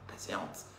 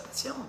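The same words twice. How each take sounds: First: Patiente breathed in a soft whisper; hushed unvoiced patiente. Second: Said in the usual way. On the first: Shown as a demonstration. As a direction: whisper patiente as a gentle reminder. Repeated word whispered.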